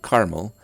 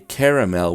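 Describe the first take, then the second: First: The word is said with two syllables. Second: The word is said with three syllables. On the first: "with two syllables, like I do" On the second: "say caramel with three syllables"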